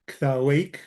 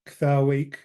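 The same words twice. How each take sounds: Both takes have the same delivery.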